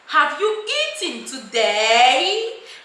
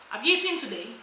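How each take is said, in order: First: The voice rises at the end. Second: The voice falls at the end.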